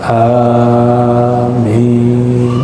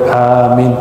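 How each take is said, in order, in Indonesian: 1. Vokal pertamanya dibaca panjang. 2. Vokal pertamanya dibaca pendek.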